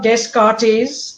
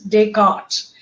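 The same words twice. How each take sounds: First: The s and final t are pronounced. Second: The s and final t are silent. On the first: The speaker calls it wrong. "it's not Descartes" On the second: The speaker calls it right. "it is Descartes"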